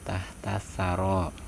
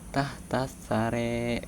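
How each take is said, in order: First: The final vowel is an open 'a' sound. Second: The final vowel is shifted toward an 'e' sound.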